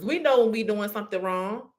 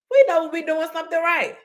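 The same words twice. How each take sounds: First: Said in the usual way. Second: Pitched well higher, leaning into we; lifted emphatic contrast. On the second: Shown as a demonstration. Preacher to audience, lifts higher for right. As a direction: raise the pitch to contrast with the wrong.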